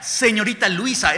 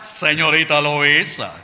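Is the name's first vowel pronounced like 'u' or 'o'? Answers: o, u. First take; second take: u; o. First: The name begins with a 'lu' sound. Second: The name begins with a 'lo' sound. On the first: "ni siquiera era Señorita Luisa" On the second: "era Señorita Loisa"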